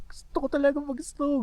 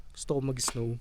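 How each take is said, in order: First: High, pleading for snow; excited. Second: Said in the usual way. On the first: Real, not acted. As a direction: beg to play in the snow. Eager wish, high and loud.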